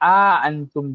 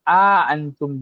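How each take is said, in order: First: A long a is inserted between the hamzas. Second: A long a is inserted between the hamzas.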